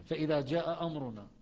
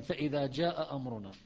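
The two takes are said the same way.

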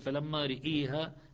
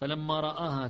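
First: The r is followed by a vowel tilted toward i. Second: The r is followed by an open a vowel.

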